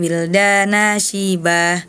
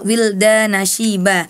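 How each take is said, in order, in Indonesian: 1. Vokalnya dibaca panjang. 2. Vokalnya dibaca pendek.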